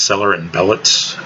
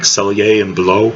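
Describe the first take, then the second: First: The name is pronounced as English spelling suggests. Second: The name is pronounced the French way. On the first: "if you read it phonetically" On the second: "If you want to be fancy about pronouncing the name, because it's actually originally a French name"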